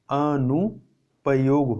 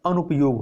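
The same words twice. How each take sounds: First: अनुपयोग said very slowly and drawn out; slow emphasis. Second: Said in the usual way. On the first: Shown as a demonstration. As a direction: spell out अनुपयोग slowly for students. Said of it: "अनुपयोग होता है". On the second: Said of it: "ना कि दुरुपयोग".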